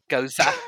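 The name is said in a British way. "they pronounce it Goza"

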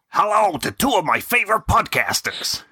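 It is read in a general American accent. "do it in the American accent"

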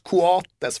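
The name is said with Spanish pronunciation. "ska ändå uttalas Coates, för att så säger de då tydligen Uruguay"

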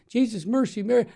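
It is said in a stern, harsh tone. It scolds the person who heard it. The speaker calls it wrong. "I don't say it like sternly"

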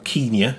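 It is said in a posh English way.

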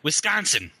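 The middle vowel sounds harsh and broad.

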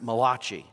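It is said with an Italian accent.

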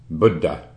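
The word is said with an Indian pronunciation. "the way that word is pronounced in India is like Buddha"

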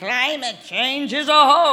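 It is said like a very old man.

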